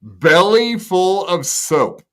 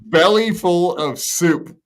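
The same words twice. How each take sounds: First: Slow reading with "soap" said /soʊp/; "soap" read slowly by mistake; misread word. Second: Slow reading with "soup" said /sup/; careful "soup" after a slip; corrected word. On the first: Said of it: "Uh, soap". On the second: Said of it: "God damn it". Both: Shown as a demonstration.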